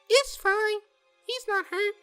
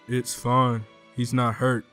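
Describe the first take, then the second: First: The voice is at a higher, ordinary pitch. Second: The voice is pushed as deep as possible. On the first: "I gotta do a different voice for her" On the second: "the deepest voice I I can muster"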